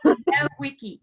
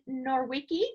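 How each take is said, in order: First: The name is said without an r sound. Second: The name is said with an r sound. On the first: The speaker calls it right. "there's no R" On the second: The speaker calls it wrong. "Did I say that right"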